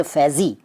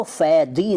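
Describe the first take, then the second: First: Said in the usual way. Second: फैदी with d replacing z. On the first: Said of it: "फैदी नहीं कहते". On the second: Shown as a demonstration. Teacher showing the rejected name, फैदी with d for z. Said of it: "नहीं कहते".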